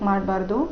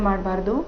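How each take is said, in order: No difference in how they are said.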